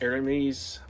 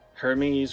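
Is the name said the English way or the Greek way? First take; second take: Greek; English. First: The name has the Greek dialect pronunciation. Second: The name has the usual English pronunciation. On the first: "would be Hermes" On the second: "Hermes would be"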